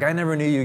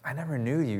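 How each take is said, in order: First: It sounds angry and harsh, like yelling. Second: It sounds sad and heartbroken, gentle.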